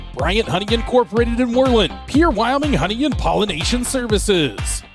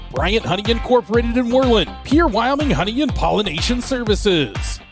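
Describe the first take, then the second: The two takes are said the same way.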